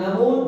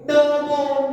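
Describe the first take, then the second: First: It is said plainly without a ringing voice. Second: It is said with a ringing, shrill voice.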